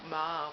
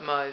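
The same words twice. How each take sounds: First: The vowel is an attempted American vowel. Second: The vowel is the speaker's usual non-American vowel. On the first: "I can't say mauve how the American, you Americans say it" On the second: "We call it mauve anyway"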